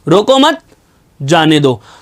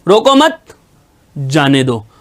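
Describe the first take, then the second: First: The pause comes right after 'mat'. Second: The pause comes right after 'mat'.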